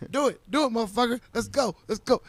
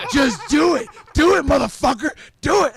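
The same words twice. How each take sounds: First: A moderately raised mock taunt; egging him on, slightly louder; taunting dare. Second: Much higher and louder mock yell; yelled dare. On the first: Retelling taunting a friend to fight. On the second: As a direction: scream the dare at him full out. Retelling taunting him to choke.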